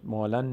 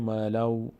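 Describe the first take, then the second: First: مالن ending on a clear "n", "maa-lan"; unmerged tanwin. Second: مالو with the n turned into "w", "maa-law"; tanwin merged. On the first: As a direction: say مالن with the n sounded. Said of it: "مالن نمیگیم". («مالن» با نونِ آشکار) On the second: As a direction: end مالو on a w glide. («مالو» با ادغام تنوین در واو) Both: Shown as a demonstration.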